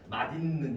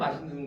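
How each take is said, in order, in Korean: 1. 중간 자음은 d처럼 들려요. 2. 중간 자음은 s처럼 들려요. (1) "누가 맛있는 이렇게 안 하잖아" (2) "맛있는이라고 그래야 진짜 맛있는 것처럼 느껴지잖아"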